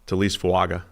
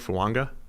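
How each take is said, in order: First: The name has no N sound in the middle. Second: The name has an N sound in the middle.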